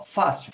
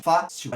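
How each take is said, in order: First: Said in the usual way. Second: "fácil" split as fá, cil, with a strong "fá"; syllable by syllable. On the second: Shown as a demonstration. Teacher counting two syllables for students, "fácil" split on "fá". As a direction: separate the two beats of "fácil". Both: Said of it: "A gente tem duas sílabas".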